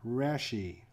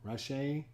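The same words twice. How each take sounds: First: "Raschi" said as RASH-ee; first pronunciation attempt. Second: "Raschi" as rah-SHAY, softer, questioning; alternative pronunciation attempt. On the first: Host guessing the pitcher's name, "Raschi" as RASH-ee. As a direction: say "Raschi" with a flat 'a' as in rash and an 'ee' ending. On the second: Host unsure of the pitcher's name, "Raschi" queried as rah-SHAY. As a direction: try "Raschi" with an 'ah' and an 'ay' ending, unsure. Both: Shown as a demonstration. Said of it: "Not sure how to pronounce his name".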